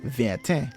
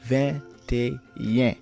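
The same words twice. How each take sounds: First: It ends with a French-style 'et un' sound. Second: It ends with a Creole-style 'ayen' sound. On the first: The speaker calls it wrong. "not pronounced as" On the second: The speaker calls it right. "it is pronounced as"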